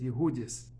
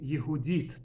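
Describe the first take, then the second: First: The name ends with an s sound. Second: The name ends with a t sound.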